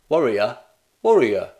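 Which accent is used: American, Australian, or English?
English. It is spoken in an English accent.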